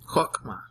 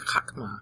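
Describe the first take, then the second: First: The first vowel is an 'o' sound. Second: The first vowel is an 'a' sound. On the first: This is the modern pronunciation. The speaker calls it wrong. "Chokmah is how they pronounce it today" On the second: This is the original pronunciation. The speaker calls it right. "but it's really chakmah"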